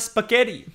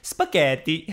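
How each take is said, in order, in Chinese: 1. 这个词是用英语口音说的。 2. 这个词是用意大利语口音说的。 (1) "spaghetti 是英式或美式的发音" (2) "我们意大利人来念呢，要念spaghetti"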